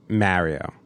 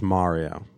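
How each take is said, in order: First: Mario is said with a New Jersey pronunciation. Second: Mario is said with a general American pronunciation. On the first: "New Jerseyans say Mario" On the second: "The rest of the country says Mario"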